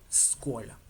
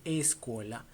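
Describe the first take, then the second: First: Scuola said with no vowel before the sc; correct Italian pronunciation. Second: Escuela with a Spanish e before the sc; wrong Italian pronunciation. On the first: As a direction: start right on the s of scuola. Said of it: "se dice scuola". (scuola sin la e inicial, empezando con la s) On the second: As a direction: add the Spanish e to the start of escuela. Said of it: "No se dice escuela". (escuela con la e inicial del español) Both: Shown as a demonstration.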